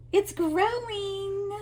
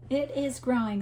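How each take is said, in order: First: High, slow, marveling "It's growing"; sing-song wonder at the yarn project; delighted gasp. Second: Said in the usual way. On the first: Real, not acted. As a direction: stretch out "growing" in happy amazement.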